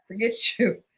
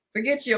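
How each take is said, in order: First: Laughing. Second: Said in the usual way. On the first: Real, not acted.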